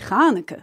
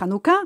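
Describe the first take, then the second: First: The stress is on the first syllable. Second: The stress is on the last syllable. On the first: This is the Yiddish pronunciation. "en yiddish, on dit Chanuk. On met l'accent sur le premier syllabe" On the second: This is the Hebrew pronunciation. "En hébreu, c'est Hanouka"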